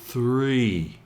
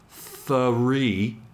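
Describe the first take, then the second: First: The TH glides smoothly into the R. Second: The TH and R sounds are broken apart. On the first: The speaker calls it right. "practice smoothly transitioning from the T H to the R" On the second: The speaker calls it wrong. "So it isn't three"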